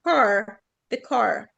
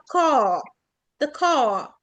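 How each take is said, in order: First: The final r sound in car is lightly pronounced. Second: The final r sound in car is dropped. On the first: "في الامريكان بينطقوها خفيفة جدا" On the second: "في البريتش بيقولوا"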